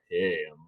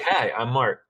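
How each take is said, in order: First: It is said in a seductive voice. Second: It is said in an ordinary voice.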